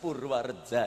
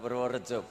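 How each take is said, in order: First: The vowels are pronounced with an a sound. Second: The vowels are pronounced with an o sound. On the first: This is the old, original form. The speaker calls it right. "bahasa sing asli saking biyen ... tetep diwaca a" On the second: This is the later, non-original form. The speaker calls it wrong. "ora Purworejo"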